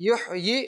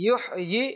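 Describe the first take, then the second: Both takes have the same delivery.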